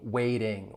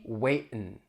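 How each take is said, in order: First: The T is a flap, with full ing ending. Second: The T is a glottal stop; the G is dropped. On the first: "just use a flap T and say the ing" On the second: "If we drop the G"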